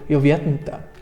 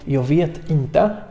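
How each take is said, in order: First: It is said quickly, with the words run together. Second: It is said slowly, with each word separate. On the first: "ale już szybciej robi się nam z tego" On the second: "Powiemy więc powoli"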